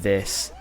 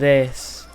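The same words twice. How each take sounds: First: The voice is lower and calmer. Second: The voice is high-pitched and squeaky. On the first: This is how the speaker prefers to sound now. The speaker calls it right. "I'd rather sound like this" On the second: This is how the speaker used to sound. The speaker calls it wrong. "than this"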